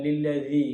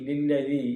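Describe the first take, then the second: Both takes have the same delivery.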